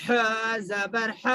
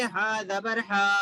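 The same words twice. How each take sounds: First: Drawn-out letter name, then a quick short final "ح"; short zabar. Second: Final "ہا" dragged out to a long "haaa"; wrongly stretched zabar. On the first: Teacher showing pupils the right reading, final "ح" kept short. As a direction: say the last "ح" as a short "ha", not stretched. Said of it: "آواز اوپر کو جا رہی ہے اور جلدی پڑھنا ہے". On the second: Teacher imitating a wrong reading, final "ہا" drawn out long. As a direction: stretch the vowel at the end of "ہا". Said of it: "تو یہ پڑھنا درست نہیں ہوگا". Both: Shown as a demonstration.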